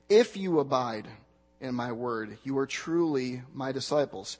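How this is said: The stress is on the word "if". "begin emphasizing the first word in the sentence"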